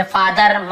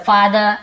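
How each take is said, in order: First: "फादर" with a full final R; R pronounced. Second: "फादर" ending in a plain vowel, no R; silent R. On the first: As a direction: say "फादर" sounding out the R at the end. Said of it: "ऐसे र को पूरा नहीं बोलते". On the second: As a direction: say "फादर" as "faa-duh". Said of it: "र थोड़ा silent होता है". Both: Shown as a demonstration.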